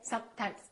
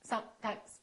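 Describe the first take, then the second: First: The s and m sounds are cut short. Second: The same.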